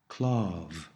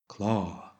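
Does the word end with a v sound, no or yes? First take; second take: yes; no. First: The word ends with a clear v sound. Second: The word ends without a final v sound. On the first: A vowel follows, or the word is said very carefully. "Before a vowel, or sometimes when pronouncing this word very, very clearly, you will want to say klav" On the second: The word stands alone. "On its own, the word is pronounced klar"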